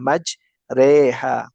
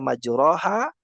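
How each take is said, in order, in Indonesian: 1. Vokal setelah r condong ke e. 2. Vokal setelah r adalah a biasa. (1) "bacaan sesuai dengan tuntunannya adalah majreha" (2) "kita ganti bacaannya majroha"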